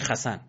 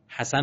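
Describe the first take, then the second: First: It begins with a rough throaty kh sound. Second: It begins with a soft breathy h sound. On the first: This is how Hebrew speakers say the name. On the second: This is the usual way to say the name.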